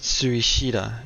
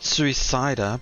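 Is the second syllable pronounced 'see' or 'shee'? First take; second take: shee; see. First: The second syllable is pronounced 'shee'. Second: The second syllable is pronounced 'see'. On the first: The speaker calls it right. "but Suishida. It's she" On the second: The speaker calls it wrong. "So not Suicida"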